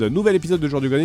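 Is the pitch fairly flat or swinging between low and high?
flat. The pitch stays fairly even throughout. "si je dis la description de l'épisode"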